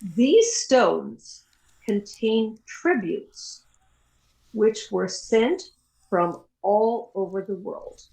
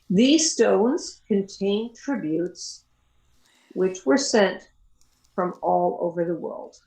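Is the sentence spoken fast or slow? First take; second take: slow; fast. First: It is spoken slowly in short chunks with pauses. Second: It is spoken at normal speed in one flow. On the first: "dictate it at a slower speed" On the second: "once more at regular speed"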